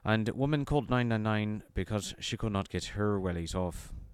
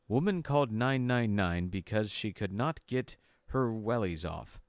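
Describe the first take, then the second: First: It is read in an Irish accent. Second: It is read in an American accent.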